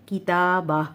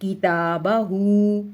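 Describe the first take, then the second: First: किताबा ending in a still h, no oo; waqf stop. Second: किताबहू very slowly, final hoo held long; full vowelled ending. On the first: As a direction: stop किताबा on -bah without the final vowel. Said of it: "तो ये क्या बन जाएगा". (किताबा, हा को साकिन करके) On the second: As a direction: recite किताबहू stretching the closing oo. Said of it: "उल्टा पेश की देखें". (किताबहू, उल्टा पेश खींचकर) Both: Shown as a demonstration.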